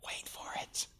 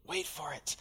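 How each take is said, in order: First: Breathy whisper, barely there; whispered suspense; whispered tease. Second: Softer, voiced murmur; hushed echo of the whisper; soft hushed repeat. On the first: Acted. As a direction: lean in and whisper it like a secret. Preacher builds suspense, hushed. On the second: Repeat, now softly voiced.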